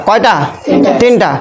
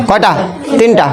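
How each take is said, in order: The two takes are said the same way.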